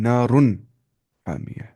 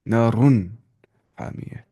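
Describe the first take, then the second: Both takes have the same delivery.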